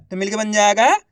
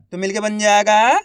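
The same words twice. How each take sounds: The two takes are said the same way.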